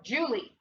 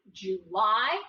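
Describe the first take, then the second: First: "Julie" stressed on the first syllable, as JOO-lee; accent on the start. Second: "July" with the second syllable drawn out and stressed; accent on the end. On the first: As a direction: make "Julie" end in an unstressed ee. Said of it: "putting our accent on the end". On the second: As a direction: say "July" as joo-LIE. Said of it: "Let's decide, is that word". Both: Shown as a demonstration.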